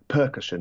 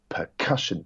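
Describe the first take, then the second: First: The stress is on the first syllable. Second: The stress is on the middle syllable. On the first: The speaker calls it wrong. "rather than percussion" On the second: The speaker calls it right. "That middle syllable is emphasized"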